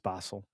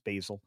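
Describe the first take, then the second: First: It is said in a British accent. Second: It is said in an American accent.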